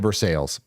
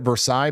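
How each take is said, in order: First: The name is pronounced the local American way. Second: The name is pronounced the original French way. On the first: This is how the towns themselves say it. "they all say Versailles" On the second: This is how the name is supposed to be said. "that's the way it's supposed to be said"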